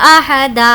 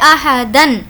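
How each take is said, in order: First: The word ends with a drawn-out a vowel. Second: The word ends with a short a and n. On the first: "इसको खींच कर पढ़ना होगा" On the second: "ये दो ज़बर है"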